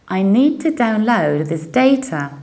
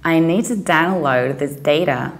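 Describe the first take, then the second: First: It is said in a British accent. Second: It is said in an American accent.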